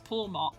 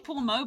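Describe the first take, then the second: First: The final t is clearly pronounced. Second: The final t is silent, French style. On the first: The speaker calls it right. "I think it is Pawmot because it's meant to be a marmot" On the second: The speaker calls it wrong. "I always want to say Pawmo ... I give it a French inflection"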